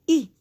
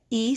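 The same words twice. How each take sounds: First: "E" said as long "ee"; E as in "see"; long E sound. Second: "E" said as short "eh"; E as in "bed", cut off alone; short E sound. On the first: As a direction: give E its letter-name sound, "ee". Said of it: "but the E also says". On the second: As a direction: give E its short vowel, "eh". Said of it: "every vowel makes two sounds". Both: Shown as a demonstration.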